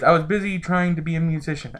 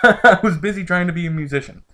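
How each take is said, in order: First: It is in the reader's own natural voice. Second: It is in a put-on character voice.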